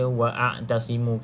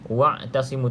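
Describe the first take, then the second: First: A glottal stop and vowel break the word. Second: The syllables run straight on without a glottal stop. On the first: The speaker calls it wrong. "tak perlu baca wa'tasimu ke" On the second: The speaker calls it right. "Jadi wa'tasimu terus"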